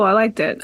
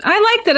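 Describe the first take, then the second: First: Low. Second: High. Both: Shown as a demonstration.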